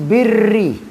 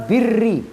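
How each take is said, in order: No difference in how they are said.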